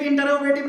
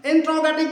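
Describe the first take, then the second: First: इंटरोगेटिव as "in-te-ro-ge-tiv"; rejected pronunciation. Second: इंट्रोगेटिव as "in-tro-ge-tiv"; recommended pronunciation. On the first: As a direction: say इंटरोगेटिव with a vowel between t and r. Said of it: "इंटरोगेटिव नहीं बोलेंगे". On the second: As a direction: say इंट्रोगेटिव with "tr" run together, no vowel between. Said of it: "इंट्रोगेटिव बोलेंगे". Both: Shown as a demonstration.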